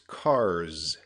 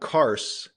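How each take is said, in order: First: The word ends with a buzzing z sound. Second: The word ends with a hissing s sound. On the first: The speaker calls it right. "That S is actually a Z sound" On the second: The speaker calls it wrong. "It's not cars"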